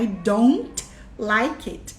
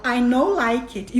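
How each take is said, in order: First: "I don't like it" with a clear "don't"; correct version. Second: Put-on "I know like it" with the child's wrong "know"; wrong version. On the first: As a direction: slowly say "don't" right. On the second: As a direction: say "know" where "don't" belongs. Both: Shown as a demonstration. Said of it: "E o certo é".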